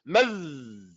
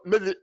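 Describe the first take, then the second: First: The final consonant ends with no vowel. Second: A vowel follows the final consonant. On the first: The speaker calls it right. "Keep still when you pronounce that zal" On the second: The speaker calls it wrong. "You can't say medhi"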